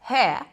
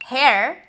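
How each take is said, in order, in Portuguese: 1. O R final é apagado. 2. O R final é claramente pronunciado.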